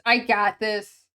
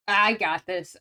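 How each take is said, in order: First: A slower, louder "I got this"; self-pep talk. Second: Said in the usual way. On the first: Real, not acted. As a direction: talk yourself up firmly.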